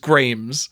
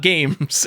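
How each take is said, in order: First: It is said with an r after the g. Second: It is said without an r after the g. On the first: The speaker calls it right. "It is Grames" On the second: The speaker calls it wrong. "not games"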